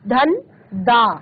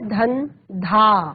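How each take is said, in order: First: The last syllable starts with a plain d. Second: The last syllable starts with an aspirated dh. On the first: The speaker calls it wrong. "आपका गलत उच्चारण है" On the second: The speaker calls it right. "सही उच्चारण है धन धा"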